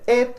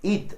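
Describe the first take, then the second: First: The vowel sounds closer to an 'eh'. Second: The vowel sounds like a clear 'ih'. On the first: The speaker calls it right. "en realidad es como un, más parecido a una e" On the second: The speaker calls it wrong. "La mayoría de la gente pronuncia el it, ... como con una i"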